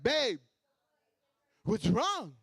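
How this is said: It is said with a dramatic pause after babe.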